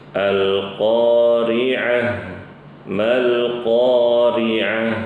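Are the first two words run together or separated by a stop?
separated. The voice stops after the first word. The reader stops at the end of the first verse. "waqaf di ayat pertama maka bacanya"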